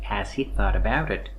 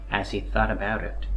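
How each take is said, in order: Both takes have the same delivery.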